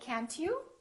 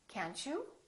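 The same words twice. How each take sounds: First: The T is a clear separate t sound. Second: The T and you blend into ch. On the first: The speaker calls it wrong. "So we don't say can't you" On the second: The speaker calls it right. "we say can't you"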